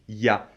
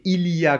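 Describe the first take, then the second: First: It is squeezed into a quick shortened form. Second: All the syllables are said in full.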